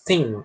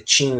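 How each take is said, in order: First: It begins with the tongue near the teeth. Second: It begins with a plain t sound. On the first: The speaker calls it right. "com a língua próxima aos dentes da frente" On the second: The speaker calls it wrong. "Ele não é pronunciado como se fosse um t"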